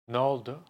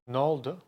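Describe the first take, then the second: Both takes have the same delivery.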